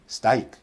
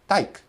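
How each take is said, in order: First: The r sound is left out of the cluster. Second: Only the t is kept from the cluster. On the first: A non-native speaker drops a consonant. "they're just eliminating" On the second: A non-native speaker drops consonants. "they're just eliminating"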